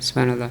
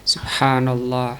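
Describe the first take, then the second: First: It is recited quickly and rushed. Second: It is recited slowly and fully.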